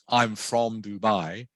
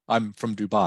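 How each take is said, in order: First: The word 'from' is said in its full form. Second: The word 'from' is said in a reduced weak form. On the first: The speaker calls it wrong. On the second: The speaker calls it right. "the word from becomes something like from"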